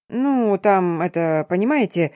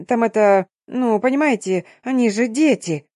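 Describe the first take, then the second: First: A light parody of fumbling hesitation; mock unsure. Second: A slightly raised, hesitant stammer; nervous fumbling. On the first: Nurse parodying the girls' excuse, hesitant mumble. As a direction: stumble through the lame excuse mockingly. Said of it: "неуверенно спародировала нашу отмазку". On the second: Headmistress excusing the girls, hesitant fumbling. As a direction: fumble for words, embarrassed. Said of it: "нервно хмыкнув, заворчала". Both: A narrator's reading.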